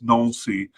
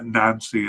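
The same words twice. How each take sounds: First: The name is said with a French pronunciation. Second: The name is said with an English pronunciation. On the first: The speaker calls it right. "it's Nancy" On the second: The speaker calls it wrong. "I know it's not pronounced uh, Nancy"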